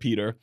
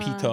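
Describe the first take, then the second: First: The word ends in an r sound. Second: The word ends in a plain vowel. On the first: The speaker calls it right. "instead of "Peter,"" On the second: The speaker calls it wrong. "and "pita""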